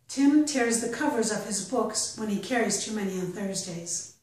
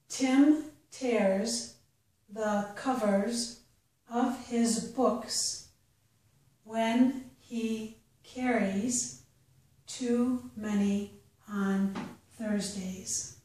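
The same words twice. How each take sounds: First: The sentence is read at a natural pace. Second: The sentence is read slowly. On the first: "the second time at a more natural pace" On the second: "The first time I'll read it slowly"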